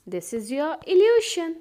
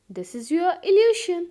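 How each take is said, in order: Both takes have the same delivery.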